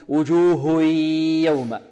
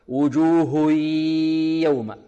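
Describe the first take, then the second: No difference in how they are said.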